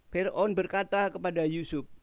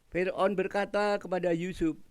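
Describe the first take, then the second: Both takes have the same delivery.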